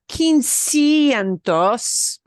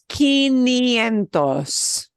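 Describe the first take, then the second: First: An s sound follows quin before ientos. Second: No s sound follows quin before ientos. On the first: The speaker calls it wrong. "It's not quincientos" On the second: The speaker calls it right. "It's quinientos"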